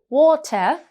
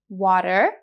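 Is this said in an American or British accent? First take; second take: British; American. First: The middle t is a clear t sound. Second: The middle t is a soft d-like flap. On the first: "In British English, the t sound here mostly stays the same" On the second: "Listen to these words again in the American accent"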